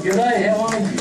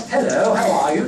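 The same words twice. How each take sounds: First: Loud, high Aussie country g'day; big Australian welcome called out. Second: High, loud mock-polite greeting; put-on formal hello, sung out high; un-country hello. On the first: Acted. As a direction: greet like a hearty country local. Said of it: "you get that country welcome". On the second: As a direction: exaggerate a proper, non-Aussie hello. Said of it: "Nothing like that".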